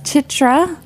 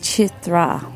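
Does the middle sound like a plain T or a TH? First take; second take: plain T; TH. First: The middle consonant sounds like a plain T. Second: The middle consonant sounds like a TH. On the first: The speaker calls it wrong. "I've been mispronouncing her name" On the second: The speaker calls it right. "it's really pronounced Chitra"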